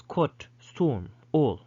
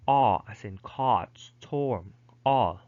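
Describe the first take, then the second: First: Closer, rounded British O; British "storm" and "all" with rounded vowel; British pronunciation. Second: American "caught" and "all" with open vowel; American pronunciation. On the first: Teacher showing the British version, British vowel demonstrated. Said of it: "But in British English". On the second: Teacher giving the American alternative, American vowel demonstrated. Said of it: "American English, these words are pronounced". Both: Shown as a demonstration.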